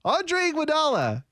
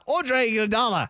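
First: High-pitched roll-call delivery; high list-reading voice; put-on name-reading voice. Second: Attempted South African accent, slightly raised pitch; British attempt that comes out South African. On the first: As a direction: read the name out high, without the accent. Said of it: "how about you just read it". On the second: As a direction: read the name with a mock South African accent. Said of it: "do your South African accent".

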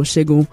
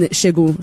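First: Name said with a Nigerian accent. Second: Said in the usual way. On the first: Shown as a demonstration. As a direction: say Shegun the Nigerian way. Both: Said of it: "let me speak in my Nigerian accent".

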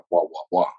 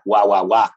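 First: "guau, guau, guau" without a Spanish accent; accent-free mimicry. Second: "guau, guau, guau" with a firm Spanish accent. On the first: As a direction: mimic English sounds by ear, understated. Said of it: "y yo no decía ... con acento español". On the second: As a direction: say the nonsense syllables like a Spaniard. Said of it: "con acento español". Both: Shown as a demonstration.

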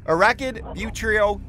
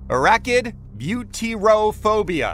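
First: "butyrophobia" with a stray "ee-oh" in the middle; higher-pitched faulty try at "butyrophobia"; botched pronunciation. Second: "butyrophobia" said slowly as byoo-tee-roh-phobia; slow, higher, deliberate "butyrophobia"; correct, careful pronunciation. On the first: Real, not acted. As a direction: stumble through "butyrophobia" as "butrio-phobia". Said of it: "I can't even pronounce it". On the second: Shown as a demonstration. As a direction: sound out each syllable of "butyrophobia". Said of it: "I'll pronounce it correctly one more time".

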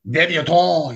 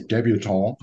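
First: Mock-grand drawn-out delivery; affected voice. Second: Said in the usual way. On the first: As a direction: draw out "Debutante" in a put-on voice. Playfully repeats word in affected voice.

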